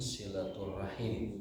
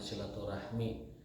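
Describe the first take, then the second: First: The word ends with the sounds 'him'. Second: The word ends with the sounds 'hmi'. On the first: The speaker calls it right. "pelafalan yang benar itu ... silaturahim" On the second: The speaker calls it wrong. "bukan silaturahmi"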